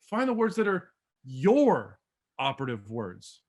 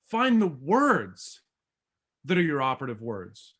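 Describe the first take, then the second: First: "your operative words" drawn out with weight on "your"; slower, lower take stressing "your". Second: Slow, emphatic "Find" to start; stress on Find. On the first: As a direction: lean on "your" in a slow, low read. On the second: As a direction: lean hard on "Find", then let "that are your operative words" drop low. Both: Shown as a demonstration. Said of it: "That all says something totally different".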